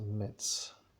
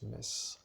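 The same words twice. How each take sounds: First: The name has the general French pronunciation. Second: The name has the local Lorraine pronunciation. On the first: "se prononce à la française Metz" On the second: "pour un Lorrain qui habite dans la région de Lorraine"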